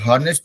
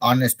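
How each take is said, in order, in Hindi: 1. शब्द की शुरुआत में साफ़ "h" ध्वनि सुनाई देती है। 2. शब्द सीधे स्वर ध्वनि से शुरू होता है। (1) "तो हॉनेस्ट नहीं बोलेंगे" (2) "ऑनेस्ट बोलेंगे"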